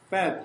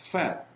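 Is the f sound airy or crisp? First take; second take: crisp; airy. First: The f is crisp, with little escaping air. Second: The f has clearly audible air leaking through. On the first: The speaker calls it wrong. "fat 하면 안 되고" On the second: The speaker calls it right. "바람 새는 소리가 나는데"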